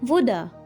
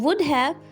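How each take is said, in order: First: The word 'have' is reduced to a weak 'a'. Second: The word 'have' is pronounced in full. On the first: "you may use a contraction here" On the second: "Instead of saying would have"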